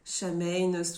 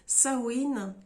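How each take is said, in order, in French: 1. Le mot se prononce comme le lirait un Français. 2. Le mot se prononce à la façon gaélique irlandaise. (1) "tout dépend comment vous allez le prononcer" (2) "La vraie prononciation, c'est Samhain"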